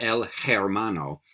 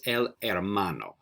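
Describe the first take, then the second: First: "el hermano" with an audible English h starting "hermano"; sounded H. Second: "el hermano" with no h, "hermano" starting on the vowel e; silent H. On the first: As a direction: mispronounce "el hermano" by breathing out the h. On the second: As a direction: say "el hermano" as "el ermano". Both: Shown as a demonstration. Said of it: "We don't pronounce the H".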